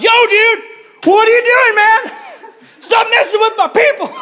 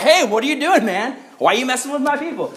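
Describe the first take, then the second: First: Very high, loud mock yell; shouting God. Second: Higher, mildly indignant confrontation; casual God. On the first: God yelling at Saul as a dude, high hammed-up shout. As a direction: holler it like an outraged dude. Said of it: "I like to think of it as like". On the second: Acted. God confronting Saul on the ground, higher-pitched and indignant. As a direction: call him out in a raised pitch. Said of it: "God shows up and he's like".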